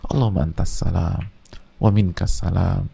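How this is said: It is said slowly and reflectively.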